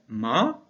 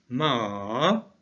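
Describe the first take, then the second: First: The pitch rises across the syllable. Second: The pitch dips down and then rises. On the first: It means hemp. "le ton va être montant, il va être ascendant" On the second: It means horse. "un ton qui fait comme une vague"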